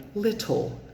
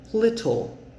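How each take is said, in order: First: The middle t is a crisp t with air. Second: The same.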